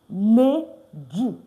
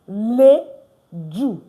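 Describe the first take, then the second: Both takes have the same delivery.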